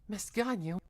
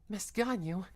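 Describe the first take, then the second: No difference in how they are said.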